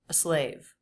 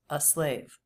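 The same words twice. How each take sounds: First: The article is slightly detached from the next word. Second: The article flows directly into the next word. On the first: The speaker calls it wrong. "it's not fully attached to the next word" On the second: The speaker calls it right.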